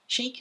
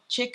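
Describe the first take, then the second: First: The vowel is a long 'ee' sound. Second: The vowel is a short 'i' sound. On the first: The speaker calls it right. "Sorry, Chic" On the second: The speaker calls it wrong. "not Chick. I always say that wrong"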